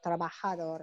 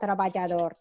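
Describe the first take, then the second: First: The j sounds like an English h. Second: The j sounds like an English j. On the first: The speaker calls it right. "J is like pronounced as like H" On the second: The speaker calls it wrong. "It's not trabajador"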